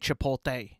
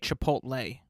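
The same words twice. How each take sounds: First: The L comes before the T sound. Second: The T comes before the L sound. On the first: "I now say Chipotle. I switched the L and the T" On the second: "I can no longer say Chipotle. Like that was tough to say right now"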